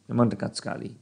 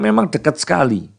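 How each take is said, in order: First: Much softer repeat of the phrase; softly repeating to himself; quiet echo. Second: Said in the usual way. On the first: Shown as a demonstration. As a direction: let it fall away to a murmur. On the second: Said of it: "Karena memang".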